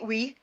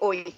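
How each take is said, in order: First: It is said with a South Wales pronunciation. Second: It is said with a North Wales pronunciation.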